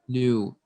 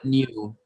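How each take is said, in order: First: It is said with no y glide before the vowel. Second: It is said with a y glide before the vowel. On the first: The speaker calls it right. "Tidak ada nya" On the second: The speaker calls it wrong. "not new"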